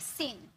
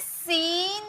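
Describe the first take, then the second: First: The vowel is short and quick. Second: The vowel is drawn out long. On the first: The speaker calls it right. "तुरंत बोलेंगे" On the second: The speaker calls it wrong. "अब इसे सीन नहीं बोलेंगे"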